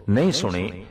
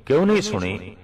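First: Said in the usual way. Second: Higher-pitched, acted demand for a reason; challenging question. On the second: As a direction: question the listener who missed it, pitch jumping up. Acted speaker questions the inattentive listener.

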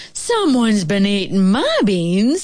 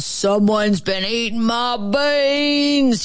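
First: Slow, middle-sized bear voice; drawn-out, mild-mannered motherly bear; mild-mannered mama bear. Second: Slow, rough growling bear voice; big, rough, gruff growl; great big gruff bear. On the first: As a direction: complain mildly as a mama bear. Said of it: "mild-mannered middle-sized voice". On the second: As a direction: growl it out slowly like a riled grizzly. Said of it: "great big rough gruff voice". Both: A narrator's reading.

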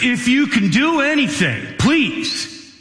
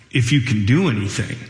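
First: High, pleading father begging for his son; a father's high pleading cry; desperate plea. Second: Echoing the words back as a questioning challenge, lower and quicker; Jesus quizzically repeating the father's words; incredulous question. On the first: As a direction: beg for help, voice lifted high. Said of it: "And the man says". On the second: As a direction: throw the plea back, doubting the "if". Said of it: "like a question". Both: Retold or imitated.

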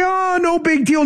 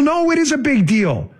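First: High-pitched, drawn "Oh" in mock unconcern; mock dismissal. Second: Firm correction leaning hard on "is"; stress on "is". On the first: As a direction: imitate someone brushing off the "big deal". Mocks those who shrug it off. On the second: Real, not acted. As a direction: punch "is" high to contradict the dismissal. Corrects the mocked dismissal.

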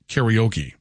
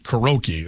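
First: Karaoke slowly as "carry-OH-key"; English karaoke. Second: Karaoke as "kuh-ROH-key"; Japanese-style karaoke. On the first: Host showing the English way, karaoke as slow "carry-oh-key". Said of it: "Whereas in English, it's pronounced". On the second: Host showing his own way, karaoke as "kuh-roh-key". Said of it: "I'm pronouncing it karaoke". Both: Shown as a demonstration.

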